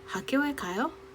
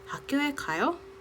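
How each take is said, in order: First: The voice rises at the end. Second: The same.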